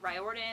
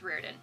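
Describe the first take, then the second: First: The surname is pronounced a non-Irish way. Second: The surname is pronounced the Irish way. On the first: This is how other people say it. "I know people say Riordan or Riordan" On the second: This is how it is said in Ireland. "It's Riordan"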